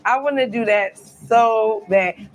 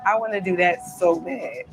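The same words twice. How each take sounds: First: "I wanna do that so bad" drawn out slowly, leaning on "wanna"; slow, emphatic repeat of "I wanna do that so bad"; longing emphasis. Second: Said in the usual way. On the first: Real, not acted. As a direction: stretch "wanna" out with real yearning.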